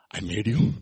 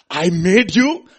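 First: Low, gentle and measured; tender declaration. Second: High, loud and emphatic cry; loud proclamation. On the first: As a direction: say it intimately, as the maker. Jesus voiced, tenderly addressing us. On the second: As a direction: proclaim it as the maker. Boy speaks to his boat. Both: Acted.

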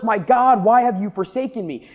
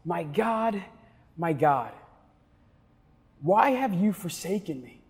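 First: Mild shout. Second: Softer, hushed and anguished, words spaced apart; hushed cry. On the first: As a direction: lift it into a mild outcry. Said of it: "he shouts in the middle". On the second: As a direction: pastor voicing Jesus's cry as a hushed lament. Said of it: "where Jesus shouts". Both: Acted.

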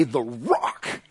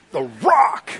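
First: Low, soft trial run; savoring a nickname. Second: High, strained mock-macho boast; hyped-up swagger. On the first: Acted. Peter tries on his new nickname, low-key. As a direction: try the name out quietly, pitched down. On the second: Peter shows off his new nickname, hammed-up swagger. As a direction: push the name out like a wrestler.

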